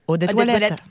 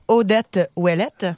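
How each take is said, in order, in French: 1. Le nom est dit vite, les mots collés ensemble. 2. Le nom est dit à un rythme normal, plutôt lent.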